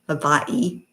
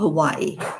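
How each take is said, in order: First: It uses a careful native-style pronunciation. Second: It uses an everyday anglicized pronunciation.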